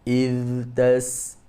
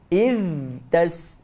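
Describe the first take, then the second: First: The first word's final sound flows on softly. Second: The first word ends with a puff of breath. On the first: The speaker calls it right. "kita baca yang betul macam mana? Iz" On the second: The speaker calls it wrong.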